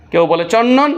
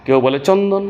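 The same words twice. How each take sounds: First: "চন্দন" said with the d swallowed into a long double n, chonnon; "চন্দন" as chonnon, no d heard; assimilated chandan. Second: "চন্দন" with a distinct n then d, chon-don; "চন্দন" spelled out with its d intact; clear chandan. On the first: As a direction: merge the n and d of "চন্দন" into one held nn. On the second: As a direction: keep the d in "চন্দন" clearly sounded. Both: Shown as a demonstration.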